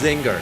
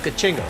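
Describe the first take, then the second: First: The name begins directly with a 'z' sound. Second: The name begins with an added 'ka' syllable. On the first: This is the proper pronunciation of the name. "I know it's pronounced Zinger" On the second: This is the speaker's own joking version of the name. "I just pronounce it as Kachinger"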